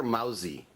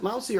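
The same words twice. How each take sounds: First: Mousy pronounced "mow-zee", rhyming with drowsy; Mousy with a voiced Z in the middle; Mousy with a Z sound. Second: Mousy, middle consonant like "mouse"; Mousy with an S sound. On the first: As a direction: buzz the S in Mousy into a Z. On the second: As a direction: say Mousy to rhyme with "blousy", S unvoiced as in "mouse". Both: Shown as a demonstration. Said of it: "Is it Mousy or Mousy?".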